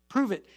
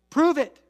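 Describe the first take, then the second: First: Said in the usual way. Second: Loud, high Prove it punched; challenge. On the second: Acted. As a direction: fling the challenge at them. Challenge shouted to congregation.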